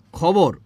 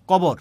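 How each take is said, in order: First: Said in the usual way. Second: কবর with unaspirated ক in place of খ; Netrokona pronunciation. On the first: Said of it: "খবর রে কি বলছি?". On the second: Retold or imitated. Teacher quoting Netrokona people, কবর with k for kh. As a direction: drop the puff of air, say কবর. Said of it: "এইটা হচ্ছে নেত্রকোনার মানুষ বলে".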